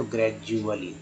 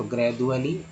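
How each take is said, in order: First: ग्रेजुअली said as "grej-u-ali"; j pronunciation. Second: ग्रेजुअली said as "gred-u-ali"; hard d in the middle of ग्रेजुअली; d pronunciation. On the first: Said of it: "जब ज पढ़ें तो". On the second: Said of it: "जब द पढ़ें तो". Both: Shown as a demonstration.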